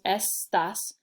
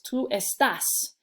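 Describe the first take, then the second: First: The stress is on the first syllable. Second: The stress is on the last syllable.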